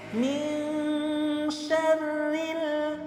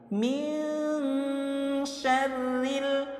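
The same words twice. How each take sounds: First: The nasal n sound is light and natural. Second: The nasal n sound is drawn out and exaggerated. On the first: This is how it is read normally. The speaker calls it right. "ketika membaca secara normal jangan terlalu jelas seperti itu ya. Cukup seperti ini" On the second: It makes the rule easy to hear. The speaker calls it wrong. "Kalau saya perjelas itu seperti ini"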